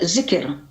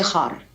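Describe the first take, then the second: First: The middle consonant is a hard k sound. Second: The middle consonant is a rasping kh sound. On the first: This is the older pronunciation. "itu orang-orang Yahudi zaman itu menyebutnya juga zikir" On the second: This is the modern pronunciation. "kaf berubah menjadi kha. Jadi zihar"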